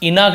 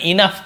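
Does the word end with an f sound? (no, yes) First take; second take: no; yes. First: The word ends without an f sound. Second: The word ends with an f sound. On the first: The speaker calls it wrong. "इनफ नहीं पढ़ेंगे" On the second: The speaker calls it right. "इनफ पढ़ेंगे, फा ऐसे उच्चारण होता है"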